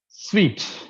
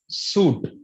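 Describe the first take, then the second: First: The word sounds like sweet. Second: The word sounds like suit. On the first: The speaker calls it right. "just like how you pronounce the word sweet" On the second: The speaker calls it wrong. "We pronounce it as suit"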